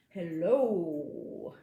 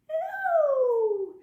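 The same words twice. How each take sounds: First: Hello is said in a very low voice. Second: Hello is said in a very high voice.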